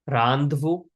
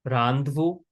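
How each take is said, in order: Both takes have the same delivery.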